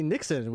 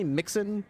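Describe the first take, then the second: First: "Nixon" begun with an N sound; "Nixon" corrected to an initial N; corrected name. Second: "Mixon" begun with an M sound; higher-pitched questioning "Mixon", M first; mispronounced name. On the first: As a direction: say "Nixon" with N, not M. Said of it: "It's actually Nixon, which you well know". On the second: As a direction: say "Mixon" with M in place of N. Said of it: "what did you always call me". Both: Shown as a demonstration.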